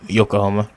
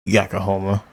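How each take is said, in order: First: Yokohama said as "Yo-ko-hama" with a long o in the first syllable; corrected Yokohama. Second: Yokohama said as "Yack-o-hama" with a short flat first vowel; mispronounced Yokohama. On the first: Viewer fixing the city name, careful Yokohama. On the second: Viewer saying the city name wrong, Yakohama. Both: Real, not acted. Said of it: "I'm sending Yokohama this entire time".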